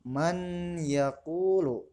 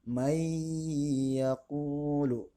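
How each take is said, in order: First: The n is pronounced clearly before the y. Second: The n merges into the following y sound. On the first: "Dalam lafadznya ditulis man yaqulu" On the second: "Contohnya may yaqulu"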